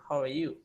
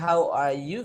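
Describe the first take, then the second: First: The words are shortened and run together. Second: Each word is said fully and separately.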